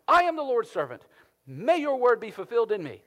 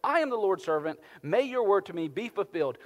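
First: High, loud triumphant proclamation; hammed-up victory cry; mock triumphant. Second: Said in the usual way. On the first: Preacher mocks a triumphant Mary, loud and high. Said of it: "she is not saying that in a moment of triumph". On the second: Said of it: "when she says".

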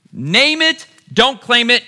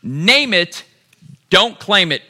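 First: "Name it, don't claim it" pitched high and punched; loud and clear. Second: Said in the usual way. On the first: Shown as a demonstration. Preacher drives the point home to the congregation, loud and clear. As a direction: ring it out high and firm. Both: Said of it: "I want to say this loud and clear today".

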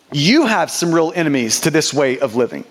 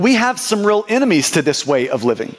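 First: Lower, pointed line leaning on "You"; stress on You. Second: "we" stands out, then the line settles; stress on we. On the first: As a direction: hit "You" first, then let the pitch fall. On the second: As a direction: put the weight on "we". Restated with we changed to you. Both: Real, not acted.

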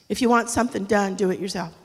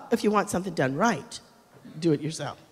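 First: Said in the usual way. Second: Mock know-it-all voice. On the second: Preacher mocking a proud saying, lower and mocking. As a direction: drop low and gravelly-free, sneer the last words.

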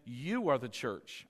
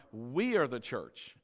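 First: You pressed, slow, falling to church; slow, stressed You are the church. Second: We pressed, slow, falling to church; slow, stressed We are the church. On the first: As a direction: point at them on You. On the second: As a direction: include everyone on We. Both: Shown as a demonstration. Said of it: "say it with me".

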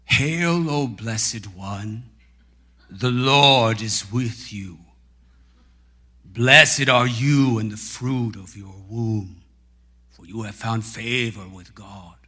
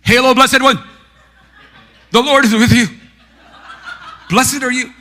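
First: Slow, grand angelic proclamation with stretched words; Gabriel. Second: Frantic high shout in short bursts; hammed-up angel bellowing lines while spinning; Gabriel. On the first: Retold or imitated. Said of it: "with echo on his voice". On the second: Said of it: "delivered his lines whenever he saw audience".

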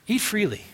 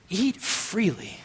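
First: Said in the usual way. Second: "Eat freely" drawn out slowly; slow emphasis. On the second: Acted. Preacher repeating God's first command to Adam, slow and emphatic. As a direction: stretch both words of "Eat freely", savoring them.

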